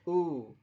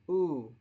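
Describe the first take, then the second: The two takes are said the same way.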